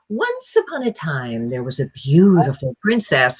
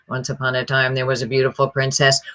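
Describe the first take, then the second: First: The pitch swings widely up and down. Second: The pitch stays almost completely flat.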